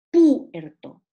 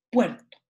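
First: "puerto" broken as PU-erto, PU loud and long; hiatus, wrong stress. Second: Said in the usual way. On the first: Shown as a demonstration. Teacher showing how it is not said, hiatus with wrong stress. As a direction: punch a long PU in "puerto", then detach "erto". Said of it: "Pero yo no digo". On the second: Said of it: "digo puerto".

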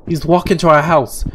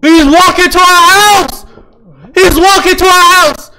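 First: Said in the usual way. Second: High, loud alarmed scream of words; panicked shout. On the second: Real, not acted. Gamer sees the stalker near home, panicked high shout. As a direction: shriek the warning, stretched and high.

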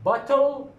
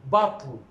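First: Bottle said high with the vowel sounded; bottle, the t and vowel both clear; full vowel demo. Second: Bottle short, the l carrying the syllable; bottle, no vowel before the l; syllabic l. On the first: Teacher models the careful form. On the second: Teacher models the reduced form. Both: Shown as a demonstration. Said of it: "regarding this word".

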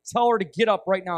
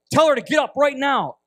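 First: Insistent but less loud command; restrained, emphatic retold command; firm repeated order. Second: Raised, high, loud order; loud, emphatic retold command; forceful command. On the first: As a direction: press the order firmly, without shouting. Repeats the order after refusal. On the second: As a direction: call out the order with full urgency. Retold urgent order to interpreter.

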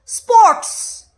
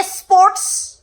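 First: স্পোর্টস starting straight on "sp", pitched high; corrected pronunciation. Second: স্পোর্টস drawn out slowly as "es-sports"; mock mispronunciation. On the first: Shown as a demonstration. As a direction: say স্পোর্টস emphatically, no vowel before the s. (স্পোর্টস, শুরুতে "এ" ছাড়া, জোর দিয়ে) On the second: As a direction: mockingly stretch an extra "es" onto স্পোর্টস. (স্পোর্টস-কে টেনে টেনে ব্যঙ্গ করে "এস-স্পোর্টস") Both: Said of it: "তুই নিজে উচ্চারণ ঠিক করে করস".

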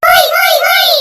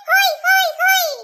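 First: Loud, rousing shouted chant; group cheer. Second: Lively call-out of a cheer; leading a cheer. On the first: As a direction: shout the cheer out at full volume. Everyone joins the cheer. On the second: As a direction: start the chant, fairly loud. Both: Acted.

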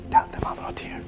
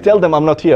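First: Hushed, secretive whisper. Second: Said in the usual way. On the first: Retold or imitated. Egyptian brother secretly asking the sheikh to cover for him, whispering. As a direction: whisper it as a furtive request.

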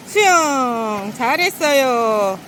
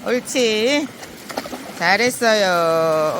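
First: Slow sing-song praise; drawn-out praise for the dog; squeaky praising a dog. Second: Slow drawn-out praise; squeaky praising a dog. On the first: Owner praising dog after swim. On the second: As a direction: stretch the praise out lovingly. Owner praising dog again. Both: Real, not acted.

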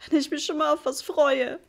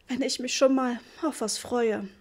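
First: Higher, louder sobbing complaint. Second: Almost steady. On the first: Mother sobbing over the ruined wallpaper, sobbing. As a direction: sob it out, voice breaking. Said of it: "schluchzte sie". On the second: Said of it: "diesmal klang ihre Stimme schon beinahe fest". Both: A narrator's reading.

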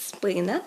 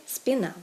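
First: Спина drawn out on СПИ-; Ukrainian first-syllable stress. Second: Спіна stressed on -НА; Russian end stress. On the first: Teacher gives Ukrainian form, спина stressed on first syllable. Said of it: "українське". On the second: Teacher gives Russian form, спіна stressed on the ending. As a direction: hit the last syllable of спіна. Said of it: "російське". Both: Shown as a demonstration.

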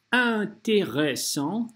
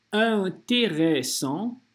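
Both takes have the same delivery.

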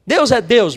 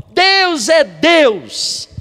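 First: Said in the usual way. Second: Very slow, higher, louder proclamation; full-force preacher's declaration; preaching emphasis. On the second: Acted. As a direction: proclaim it slowly to the church. Preaching climax after 111.

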